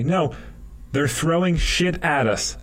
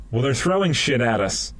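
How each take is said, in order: First: "throwing" stressed, voice high; "throwing" pushed up in pitch; higher, insistent repeat. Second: Said in the usual way. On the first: Retold or imitated. Soldier insisting, voice rising.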